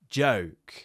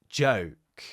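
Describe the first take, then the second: No difference in how they are said.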